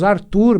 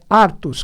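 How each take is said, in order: First: The name ends with an R sound. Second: The name ends with an S sound. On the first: This is the form people commonly use. The speaker calls it wrong. "Nós falamos Arthur" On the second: This is the true form of the name. The speaker calls it right. "mas é Artus"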